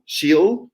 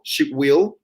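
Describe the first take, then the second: First: Will is shortened and joined onto the pronoun. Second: Will is said in full as a separate word. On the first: "with the contracted form" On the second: "It would be"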